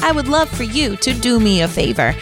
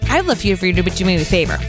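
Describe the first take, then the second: First: The sentence is spoken at a slower pace. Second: The sentence is rushed together quickly. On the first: The speaker calls it right. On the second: The speaker calls it wrong.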